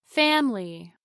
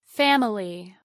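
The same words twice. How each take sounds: No difference in how they are said.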